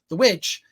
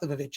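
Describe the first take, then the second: First: The word starts with a plain w sound. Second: The word starts with a v sound, vivitch. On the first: The speaker calls it right. "It's The Witch" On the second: The speaker calls it wrong. "It's not the Vivitch"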